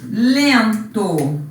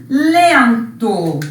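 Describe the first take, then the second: Both takes have the same delivery.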